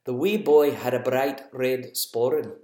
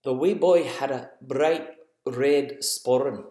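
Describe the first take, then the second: First: Scottish accent again, rolling the words; a light Scottish lilt, said once more. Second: Lightly done Scottish accent, slow and measured; a gentle Scottish lilt on each word. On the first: Parent repeating the Scottish accent so kids can guess. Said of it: "I'll say it again". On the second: Parent doing a Scottish accent for kids in the car. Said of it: "what accent I was putting on there". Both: Shown as a demonstration.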